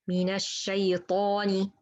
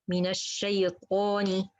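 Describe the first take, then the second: The two takes are said the same way.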